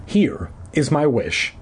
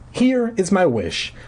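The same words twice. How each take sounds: First: Slow, measured statement at usual pitch; deliberate, evenly weighted declaration; careful. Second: High, slow and nervous; hesitant, pitched-up declaration. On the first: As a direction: lay the words out slowly and carefully. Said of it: "I repeated carefully". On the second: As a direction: say HERE high, then slowly feel out the wish. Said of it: "I said in a trembling voice". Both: A narrator's reading.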